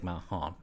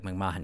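First: The name is said in an American accent. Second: The name is said quickly, in an Irish accent. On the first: This is how people in the US say it. The speaker calls it wrong. "You wouldn't say McMahon" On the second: This is how people in Ireland say it. The speaker calls it right. "We would say like McMahon"

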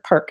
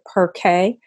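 First: The name is said as one single syllable. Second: The name is said in two separate syllables. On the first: The speaker calls it right. "we want to call it one word" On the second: The speaker calls it wrong. "it's easy to pronounce it Perkay"

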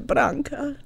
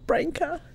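First: The name is said with Croatian pronunciation. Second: The name is said with non-Croatian pronunciation. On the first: This is how people in Croatia say the name. "That's how they say my name in Croatia" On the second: This is how people outside Croatia say the name. "not Branka"

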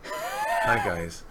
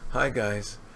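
First: The greeting sounds friendlier and warmer. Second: The greeting sounds less friendly and curt. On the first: "I'll do it a little nicer" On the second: "You said it like this"

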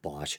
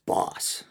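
First: The name ends with an sh sound. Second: The name ends with a plain s sound. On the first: "Everyone pronounces it like the power tool company. So I just go with Bosch" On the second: "I think I once read it's supposed to be pronounced Boss. Like a boss"

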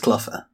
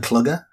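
First: The middle consonant is an f sound. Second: The middle consonant is a hard g sound. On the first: The speaker calls it right. "It's Cluffer" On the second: The speaker calls it wrong. "it rhymes with bugger. So Clugger?"

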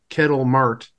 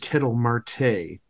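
First: The surname ends on a consonant sound. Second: The surname ends on a vowel sound. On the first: The speaker calls it wrong. "he made a little error in pronouncing" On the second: The speaker calls it right. "with all due respect, the guy's name is Kettle Marte"

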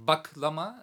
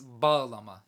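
First: The middle g is a hard stop. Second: The middle g is soft and breathy. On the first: The speaker calls it wrong. "Not Baglama" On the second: The speaker calls it right. "It's a H. It's a softened G"

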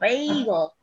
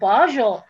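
First: The word is said with the standard English pronunciation. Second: The word is said with an unusual, nonstandard pronunciation. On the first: The speaker calls it right. "it's pronounced bagel" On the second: The speaker calls it wrong. "she couldn't pronounce it"

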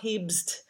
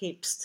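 First: The b sound is voiced. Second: The b sound is voiceless, like a p. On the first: The speaker calls it wrong. "so it's not hebst" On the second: The speaker calls it right. "We don't want a voicing to go through it"

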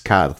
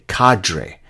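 First: It is said with a French pronunciation. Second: It is said with an American pronunciation.

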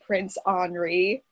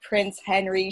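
First: The name is said with French pronunciation. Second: The name is said with English pronunciation. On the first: The speaker calls it right. "in France, they were Henri" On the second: The speaker calls it wrong. "They're known as Henry and Francis when you're in an Anglophonic country"

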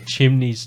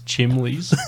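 First: The middle consonant is an n sound. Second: The middle consonant is an l sound. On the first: The speaker calls it right. "I used to call chimneys chimleys" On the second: The speaker calls it wrong. "I used to call chimneys chimleys"

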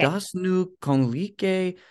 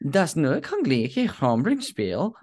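First: It is said with a Spanish-like pronunciation. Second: It is said with a German accent.

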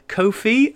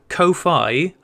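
First: The first vowel is long and the second ends in 'ee'. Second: The second syllable rhymes with 'high'. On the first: "as in Anan is the one that baffles me" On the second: "as in lo-fi"

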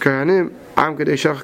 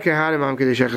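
First: There is a pause after the first word. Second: The words run together without a pause. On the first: The priests are called, and the holy nation is addressed separately. The speaker calls it right. "ein milas kainim davik milas am kedai shecha" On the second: The priests themselves are the holy nation. The speaker calls it wrong. "It's not"

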